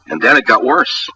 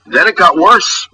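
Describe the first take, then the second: First: Said in the usual way. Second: "Then it got worse" drawn out slowly and pitched high; higher, slower hit on "Then it got worse", rising at the end; dramatic emphatic repeat. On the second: Real, not acted. Radio host escalating his rant about the dinner, "Then it got worse" high, slow and emphatic.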